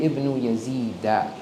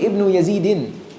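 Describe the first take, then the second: First: The name ends with an -a sound. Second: The name ends with an -in sound. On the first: The speaker calls it right. "You say Ibn Yazida" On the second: The speaker calls it wrong. "We don't say Ibn Yazidin"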